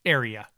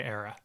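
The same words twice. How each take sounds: First: "area" said fully in three syllables, air-ee-uh; self-correction. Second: "era" said with two syllables, air-uh, instead of area; the accidental "era" with the middle vowel dropped; slip of the tongue. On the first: Host catching his slip, correcting it to a clean "area". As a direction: fix it to "area" with all three syllables clear. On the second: Podcast host stumbling on the area name, saying "era". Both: Real, not acted. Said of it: "I had it right that time and then switched back".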